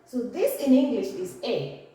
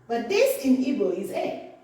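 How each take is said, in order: First: The letter name is said the English way. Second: The letter name is said the Igbo way. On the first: "this in English is" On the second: "But this in Igbo is"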